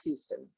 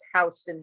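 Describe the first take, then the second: First: The first syllable sounds like 'hue'. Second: The first syllable sounds like 'house'. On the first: This is how a newcomer says the street name. The speaker calls it wrong. "not Houston" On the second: This is how the local New York street is said. The speaker calls it right. "It's pronounced Houston here"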